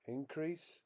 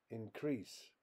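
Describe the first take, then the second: First: INcrease, the noun, pitched high on IN; stress on first syllable. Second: InCREASE, the verb, with stress on CREASE; stress on second syllable. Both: Shown as a demonstration. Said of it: "More examples".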